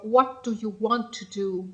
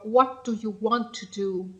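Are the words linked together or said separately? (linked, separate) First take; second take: separate; separate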